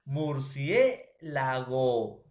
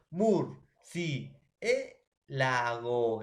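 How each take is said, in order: First: Murciélago slow and loud, in drawn-out chunks; syllable chunks. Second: Murciélago very slowly, mur, cié, la, go with pauses; syllable by syllable. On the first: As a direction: stretch murciélago out, murcié then lago. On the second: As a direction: separate every beat of murciélago with long gaps. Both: Shown as a demonstration. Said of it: "tengo que silabear en una sola emisión de voz".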